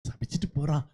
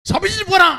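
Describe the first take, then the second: First: The phrase is said quietly and gently. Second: The phrase is said loudly and harshly. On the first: This is the voice of the Spirit within. The speaker calls it right. "அப்படின்னா ஆவியானவர் உங்களுக்குள்ள இன்னும் இருக்கிறார்னு அர்த்தம்" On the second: This is the voice of Satan. The speaker calls it wrong. "அப்படி எல்லாம் கேட்காது. அப்படி கேட்டா சாத்தான்"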